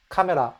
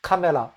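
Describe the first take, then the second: No difference in how they are said.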